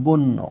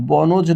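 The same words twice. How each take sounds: First: বন্য said as bon-no, no j sound; বন্য with the n doubled and j silent. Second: বনজ with the j sounded after a single n; বনজ, n and j as separate syllables; wrong reading of বন্য. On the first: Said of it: "ন দুইবার হয়ে গিয়েছে". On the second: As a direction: say বনজ, sounding out the written জ ফলা. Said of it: "বনজ না হয়ে". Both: Shown as a demonstration.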